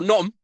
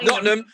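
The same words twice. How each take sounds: First: The T sounds in the word are dropped. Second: The T sounds in the word are pronounced. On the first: "If you can get rid of the T's as well" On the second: "Nottingham is the correct pronunciation"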